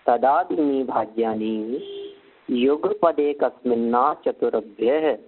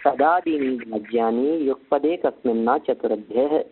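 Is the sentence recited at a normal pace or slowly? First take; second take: slowly; normal. First: It is recited slowly, word by word. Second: It is recited at a normal, flowing pace.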